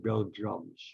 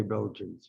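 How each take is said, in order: First: "Belgiums" ending in an m sound; mispronounced Belgians. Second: Said in the usual way. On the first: Retold or imitated. Storyteller showing how the boxer said it, mispronounced "Belgiums". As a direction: say "Belgiums", with -jums for -jans. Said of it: "Ali couldn't say Belgians. He always said". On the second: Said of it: "Ali couldn't say Belgians. He always said Belgiums".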